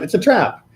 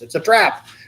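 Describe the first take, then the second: First: It is said in his normal voice. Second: It is said imitating Admiral Ackbar's voice.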